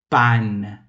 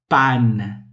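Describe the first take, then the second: Both takes have the same delivery.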